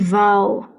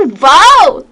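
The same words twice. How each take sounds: First: It is said flatly, with no emotion. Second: It is said excitedly, with strong emotion.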